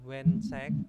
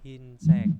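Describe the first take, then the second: First: The first vowel is a gliding diphthong. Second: The first vowel is a plain 'i'. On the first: The speaker calls it wrong. "bukan wensek" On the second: The speaker calls it right. "tapi hinsek"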